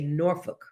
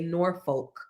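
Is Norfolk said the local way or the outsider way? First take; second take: local; outsider. First: It uses the local pronunciation of the name. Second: It uses the outsider's pronunciation of the name. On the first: The speaker is from the area. The speaker calls it right. "when you're from here, you say Norfolk" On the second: The speaker is not from the area. The speaker calls it wrong. "us uh, city folks from the West. We say Norfolk"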